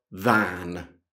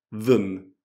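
First: The vowel is a full open sound. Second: The vowel is a short reduced sound. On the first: The speaker calls it wrong. "Non è spesso than" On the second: The speaker calls it right. "Di solito viene pronunciato than. Quindi la A non c'è"

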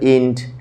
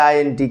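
First: The word is said as one syllable. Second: The word is spelled out letter by letter. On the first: "কেউ বলে ইন্ট" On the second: "কেউ বলে আইএনটি"

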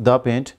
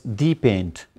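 First: The word 'the' is said as 'thuh'. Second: The word 'the' is said as 'thee'. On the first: It is just an ordinary paint. "not the paint" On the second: It claims this is the best paint of all. "Sometimes we use it for the sake of emphasis"

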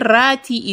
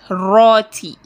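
First: The r is thin and light. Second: The r is thick and heavy. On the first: The speaker calls it wrong. "If I say rati is wrong" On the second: The speaker calls it right. "raw is to be thickened"

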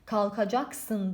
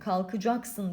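First: The suffix vowel is a full, open a. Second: The suffix vowel is narrowed toward ı. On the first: The speaker calls it wrong. "diksiyon kuralı olarak kalkacaksın demiyoruz" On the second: The speaker calls it right. "Hani kalkacaksın diyoruz. Buradaki baştaki a'yı ... biraz daraltıyoruz"

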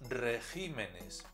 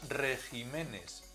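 First: The stress is on the syllable gi. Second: The stress is on the syllable re. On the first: The speaker calls it right. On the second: The speaker calls it wrong.

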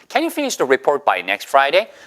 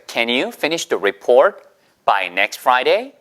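First: The sentence is spoken at a faster pace. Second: The sentence is spoken at a slower pace.

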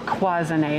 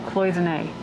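First: The word is pronounced the French way. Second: The word is pronounced the English way.

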